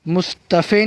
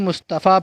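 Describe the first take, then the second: First: The word ends with an 'e' vowel. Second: The word ends with a long 'a' vowel. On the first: The speaker calls it wrong. "मुस्तफ़े नहीं पढ़ेंगे" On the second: The speaker calls it right. "मुस्तफ़ा पढ़ेंगे।"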